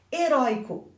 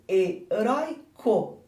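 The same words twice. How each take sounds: First: Said in the usual way. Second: Heróico said slowly, the oi drawn out; slowed down. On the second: Shown as a demonstration. Teacher slowing heróico to show the lost accent, drawn out. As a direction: stretch heróico so the oi stands out.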